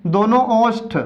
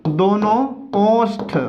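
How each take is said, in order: First: Said in the usual way. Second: "दोनों" alone, a pause, then "ओष्ठ"; word by word, with pauses. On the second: Shown as a demonstration. ("दोनों" ... "ओष्ठ" रुक-रुक कर) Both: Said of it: "तो दोनों ओष्ठ या ओंठ".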